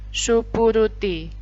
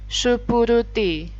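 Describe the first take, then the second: Both takes have the same delivery.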